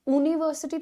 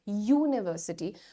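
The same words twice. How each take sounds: First: The word begins with a plain vowel sound. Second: The word begins with a consonant Y sound. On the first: The speaker calls it wrong. "यूनिवर्सिटी थोड़ी कहते हो" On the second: The speaker calls it right. "पहला sound य का है"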